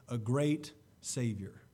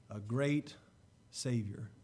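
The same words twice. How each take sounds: The two takes are said the same way.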